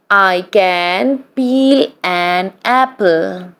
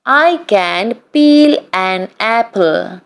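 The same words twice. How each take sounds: The two takes are said the same way.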